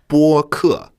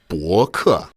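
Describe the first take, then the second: First: The first syllable's pitch is high and level. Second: The first syllable's pitch is not high and level. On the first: It means podcast. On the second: It means blog.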